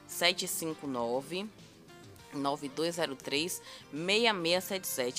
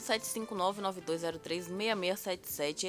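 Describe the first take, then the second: First: The number is said slowly and deliberately. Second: The number is said at normal, quicker speed.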